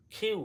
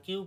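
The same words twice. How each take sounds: First: "খিউ" with a puff on kh; aspirated Q. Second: Said in the usual way. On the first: Shown as a demonstration. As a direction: start "খিউ" on breathy kh, glide to yoo. ("খিউ" বাতাস দিয়ে) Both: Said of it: "আর কিউ পড়বো না".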